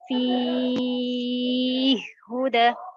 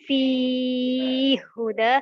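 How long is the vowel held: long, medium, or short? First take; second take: long; medium. First: The long vowel is held for six counts. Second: The long vowel is held for four counts. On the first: "atul memiliki enam harokat" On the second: "at-tawassut memiliki empat harokat"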